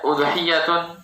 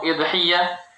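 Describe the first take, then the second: First: The word begins with a 'u' vowel. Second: The word begins with an 'i' vowel. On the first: "hamzanya didomahkan" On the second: "hamzanya dikasrokan"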